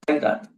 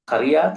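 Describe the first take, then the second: First: It is said as kai-rat. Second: It is said as ka-ri-yat. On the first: "or Kairat?" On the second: "are you saying Kariyat"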